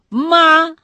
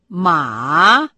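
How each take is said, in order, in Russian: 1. Тон остается высоким и ровным. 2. Тон опускается низко, а затем поднимается.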